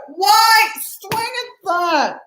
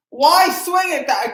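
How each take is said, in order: First: Very high and very slow, every word stretched; drawn-out exasperation. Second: Slow, high, pained question; exasperated plea. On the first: Fan repeats his question to the batter, stretched into a high wail. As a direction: wail it out in disbelief. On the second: Fan groans at his slugger chasing a bad pitch, exasperated. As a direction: beg the batter to explain himself. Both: Real, not acted.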